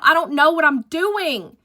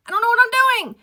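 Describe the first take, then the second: First: Higher, worried; panicked. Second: Much higher, squeaked in despair; desperate squeal. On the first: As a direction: say it in rising panic. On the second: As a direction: squeak it out, at the end of your rope. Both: Retold or imitated. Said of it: "And I'm like".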